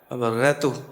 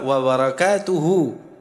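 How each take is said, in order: First: The word ends on a bare final consonant. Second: The word ends with a final vowel sound. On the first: The phrase stops here. "Karena berhenti" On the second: The phrase seems to continue. "Padahal asalnya apa?"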